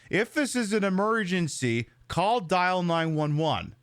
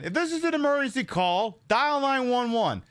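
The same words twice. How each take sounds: First: The pause comes right after the word emergency. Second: The pause comes right after the word call. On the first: The speaker calls it wrong. "has chosen to ignore the comma and reads it off as" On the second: The speaker calls it right. "There's a pause. You take a beat"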